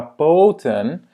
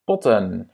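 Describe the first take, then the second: First: Poten with a long, drawn-out O. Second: Potten with a short, quick O. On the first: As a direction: stretch the O in poten loudly. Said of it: "C'est pas poten". (« poten » avec un O long) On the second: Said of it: "Il va être court". (« potten » avec un O court) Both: Shown as a demonstration.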